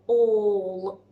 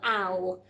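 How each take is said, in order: First: The vowel is an 'or' sound, like awe. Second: The vowel is an 'ow' sound, like owl. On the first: The speaker calls it right. "He's making more of an or sound" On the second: The speaker calls it wrong. "if we blend it, it would be owl"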